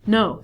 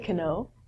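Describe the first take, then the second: First: The word starts directly with an N sound. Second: A K sound is heard before the N. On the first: The speaker calls it right. "We reduce this to no" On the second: The speaker calls it wrong. "We don't say kano"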